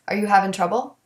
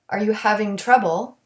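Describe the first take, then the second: First: The g at the end of having is dropped. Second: The g at the end of having is pronounced.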